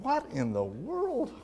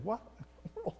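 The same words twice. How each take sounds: First: Higher, puzzled "What in the world?"; "What in the world?" said as a bewildered exclamation; incredulous. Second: Much softer, higher "What in the world?" under the breath; "What in the world?" breathed out quietly, stunned; muttered disbelief. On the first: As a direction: ask "What in the world?" in amazed disbelief. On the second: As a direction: murmur "What in the world?" to yourself. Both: Retold or imitated. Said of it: "And I'm thinking".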